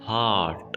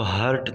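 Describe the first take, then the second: First: The vowel is long, with no r sound. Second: The vowel is short. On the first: The speaker calls it right. "इसको आपने थोड़ा सा खींच कर पढ़ना है और आपने आर को भी साइलेंट रखना है" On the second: The speaker calls it wrong. "आपने इसको हर्ट नहीं पढ़ना"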